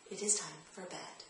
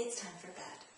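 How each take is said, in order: First: The same calm, soft, firm line; steady and gentle, no emotion; firm but loving. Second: Calm, soft and firm, no argument; firm but loving. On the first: Parent repeating the bedtime line, soft and firm. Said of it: "In the same firm, loving voice". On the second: Parent putting child back to bed, soft and firm. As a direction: say it gently but leave no room. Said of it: "in a firm but loving voice". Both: Shown as a demonstration.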